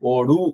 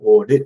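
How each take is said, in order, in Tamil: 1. கடைசி உகரம் முழு நீளத்தில் ஒலிக்கப்படுகிறது. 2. கடைசி உகரம் குறுகியதாக ஒலிக்கப்படுகிறது. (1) "ஓடு அப்படின்னு சொல்ல மாட்டோம்" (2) "ஓடு அவ்வளவுதான்"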